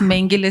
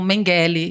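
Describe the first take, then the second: First: The name is said with a German pronunciation. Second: The name is said with a Brazilian pronunciation. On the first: "seria como seria em alemão" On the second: "aqui no Brasil as pessoas falam Mengele"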